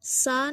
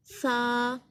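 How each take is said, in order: First: सा as a plain s, the incorrect way; wrong plain s. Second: सा with tongue tip on upper teeth; correct tha. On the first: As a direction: say सा like English s, wrongly. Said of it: "सा नहीं पढ़ना". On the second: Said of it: "सही मखरिज". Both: Shown as a demonstration.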